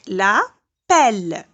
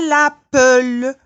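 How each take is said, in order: First: The word ends on the L with no vowel. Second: A vowel sound is heard after the final L. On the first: The speaker calls it right. "je ne prononce pas le E" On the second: The speaker calls it wrong. "je ne dis pas la pelle. C'est faux"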